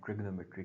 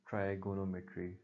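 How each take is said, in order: First: It starts with 'trig' and drops a syllable. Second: It starts with 'try' and keeps every syllable. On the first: This is the form people commonly use now. "जिसको अब हम ट्रिग्नोमेट्री कहते हैं" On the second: This is the original form built from three Greek words. "इट should be pronounce as ट्राइगोनोमेट्री"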